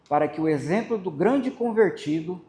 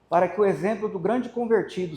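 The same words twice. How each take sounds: First: The phrase is read slowly. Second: The phrase is read quickly. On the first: The speaker calls it right. "eu vou falar mais devagar" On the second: The speaker calls it wrong. "Eu li muito rápido"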